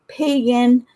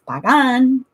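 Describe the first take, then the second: First: It is said like the English word pagan. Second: It is said with Spanish sounds and stress. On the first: The speaker calls it wrong. "A lot of people pronounce it pagan" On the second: The speaker calls it right. "but it's not pagan, it's Pagan"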